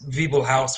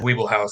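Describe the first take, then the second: First: The name begins with a V sound. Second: The name begins with a W sound. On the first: This is the correct German pronunciation. "the correct German pronunciation is Wiebelhaus with a with a kind of like a V sound at the beginning" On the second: This is how the family has always said it. "we've always said Wiebelhaus"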